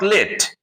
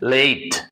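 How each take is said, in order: First: The vowel is short, as in let. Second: The vowel is a long ay sound. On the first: The speaker calls it wrong. "L A T E is not late" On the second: The speaker calls it right. "L A T E is late"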